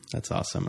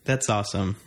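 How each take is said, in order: First: Whispered under the breath. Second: Said in the usual way. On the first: Shown as a demonstration. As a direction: drop to a whisper. Repeats the phrase whispered.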